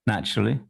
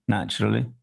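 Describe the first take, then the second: The two takes are said the same way.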